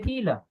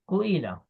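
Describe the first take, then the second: First: It begins with 'ki' and has no 'u'. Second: It begins with 'ku' before the 'i'. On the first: This is how native speakers actually say it. The speaker calls it right. "They say Kila" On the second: This is the form the rules produce. The speaker calls it wrong. "This is what we got by using the rules"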